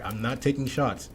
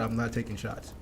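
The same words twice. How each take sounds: First: Said in the usual way. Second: Backing off, "I'm not taking shots" said softer and calmer; softer, reassuring. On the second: Shown as a demonstration. Host reassuring viewers after a jab, softly. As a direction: take the edge off, gently. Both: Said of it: "that sounded like a shot".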